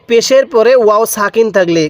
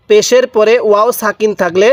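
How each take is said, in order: Both takes have the same delivery.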